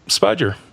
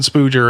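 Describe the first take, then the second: First: It is said with an 'uh' vowel, like spudger. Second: It is said with an 'oo' vowel, like spooger. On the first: The speaker calls it right. "Nope, spudger" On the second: The speaker calls it wrong. "I mispronounced the word spudger"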